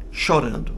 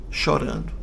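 First: Said in the usual way. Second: A soft unvoiced whisper of Chorando; a quiet afterthought; whispered echo. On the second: A narrator's reading. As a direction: breathe Chorando as a hushed echo.

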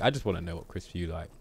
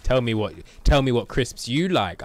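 First: Said in the usual way. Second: Loud, insistent defensive demand. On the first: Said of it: "I'm not trying to be defensive". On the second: Acted. Streamer mimicking himself grilling viewers about crisps, defensive demand. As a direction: press hard for an answer, defensively. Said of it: "not trying to be defensive and be like".

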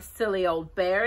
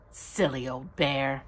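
First: Said in the usual way. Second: Loving. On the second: A narrator's reading. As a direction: say it tenderly, lingering on each word. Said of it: "in such a loving voice".

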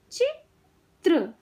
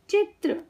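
First: चित्र slowly, with a gap before त्र; syllable by syllable. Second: Said in the usual way. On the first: Shown as a demonstration. Teacher teaching kids to read, syllables apart. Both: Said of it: "शब्द पढ़ना सिखाऊंगी".

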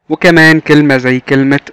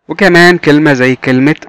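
The two takes are said the same way.

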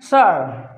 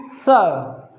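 First: सर with a curled American r; American accent. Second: सर as British "suh", final r silent; British accent. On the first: Teacher contrasting accents for students, American accent. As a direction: lift the tongue for the r of सर, American accent. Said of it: "American में सर". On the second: Teacher contrasting accents for students, British accent. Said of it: "लेकिन British में सर". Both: Shown as a demonstration.

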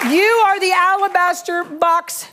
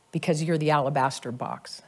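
First: "You" held high and slow, whole line higher and slower; proclaimed emphatically. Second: "alabaster box" dropped low and soft; softly spoken. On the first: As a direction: declare it slowly, leaning on "You". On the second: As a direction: let it fall gently, almost to yourself. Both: Acted. Prophecy relayed, softly then proclaimed.

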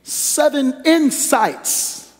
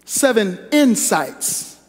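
First: Seven insights stretched very slowly and high; slow drawn-out title. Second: Seven insights repeated slow and firm; slow repeated title. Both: Real, not acted. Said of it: "I want you to hear me loud and clear".

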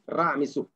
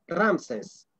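First: "Ra Mesú" as two words, "Ra" then "Mesú"; correct Egyptian pronunciation. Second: "Ramses" slowly, run into one word of two syllables; Greek pronunciation. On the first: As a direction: say "Ra Mesú" with the final ú stressed. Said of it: "Esto es su nombre correcto". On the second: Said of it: "según la pronunciación griega". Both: Shown as a demonstration.

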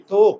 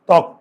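First: ত্বক with a closed "o" vowel, like "tok"; wrong closed-o vowel in ত্বক; mispronounced ত্বক. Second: ত্বক with an open "aw" vowel, silent ব; open-vowel ত্বক, crisp final k; correct ত্বক pronunciation. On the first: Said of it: "আমরা কি ত্বক বলি?". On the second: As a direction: say ত্বক as "tawk", ending on k. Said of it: "আমরা বলি ত". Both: Shown as a demonstration.

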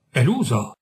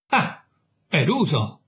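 First: Said in the usual way. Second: Slow, savouring each word with a smile; slow, smiling triumph; triumphant smile. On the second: Acted. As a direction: let the victory show as you echo it. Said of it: "dissi con un sorriso di trionfo".

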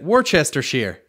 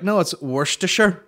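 First: Worcestershire as wor-chester-sheer; spelled-out pronunciation. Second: Worcestershire squeezed to WUSS-ter-sher; customary pronunciation. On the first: Shown as a demonstration. Showing how you should say it, Worcestershire as wor-chester-sheer. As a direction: sound out Worcestershire as it is written. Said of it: "That's probably how you should say it". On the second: Retold or imitated. People correcting the literal reading, Worcestershire as wuss-ter-sher. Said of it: "But people are like".

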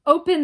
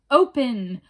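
First: Open! screamed higher and louder still; the second Open! climbs into a shriek. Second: Loud witch's shout at the door; first Open! loud, not yet at full scream; screamed command. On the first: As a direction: witch at the door screaming Open! at top pitch. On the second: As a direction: bang out the word Open! as a demand. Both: Acted. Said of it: "they screamed".

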